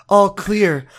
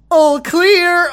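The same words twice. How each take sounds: First: Said in the usual way. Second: High, loud put-on voice; Josh voice. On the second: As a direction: pitch it way up and call it out. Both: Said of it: "why did I do Josh voice?".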